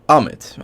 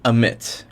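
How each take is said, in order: First: Ammit as "AH-mit"; alternative pronunciation of Ammit. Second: Ammit as "uh-MIT"; first pronunciation of Ammit. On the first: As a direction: say Ammit with an open AH, stressed up front. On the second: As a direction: say Ammit with a weak first vowel, stress on MIT. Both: Shown as a demonstration. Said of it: "I don't know the pronunciation".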